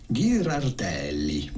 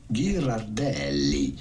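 No difference in how they are said.

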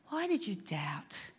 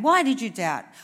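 First: It is said in a gentle, loving tone. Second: It is said in a harsh, scolding tone. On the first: He is reassuring Peter that he loves him. The speaker calls it right. "He was" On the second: He is rebuking Peter for his lack of faith. The speaker calls it wrong. "I don't think that Jesus said it like that"

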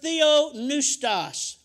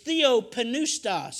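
First: The P in the middle is silent. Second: The P in the middle is pronounced. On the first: This is an English-style pronunciation. The speaker calls it wrong. "I pronounce it wrong every time. I'm giving an English translation" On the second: This is how it is said in Greek. The speaker calls it right. "That's how it's pronounced in the Greek"

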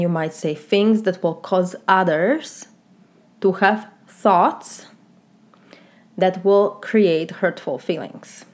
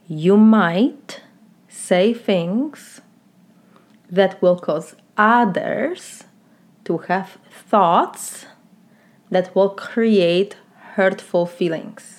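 First: The sentence is spoken at a normal, quicker pace. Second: The sentence is spoken at a slower, deliberate pace.

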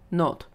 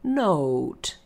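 First: The vowel is short and clipped. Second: The vowel is long and glides toward U. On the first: The speaker calls it wrong. "that is going to get a lot of huh?" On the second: The speaker calls it right. "it's really long"

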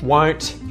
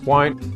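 First: The final T is clearly pronounced. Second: The final T is muted and silent. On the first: "won't becomes won't" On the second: "won't becomes won't"

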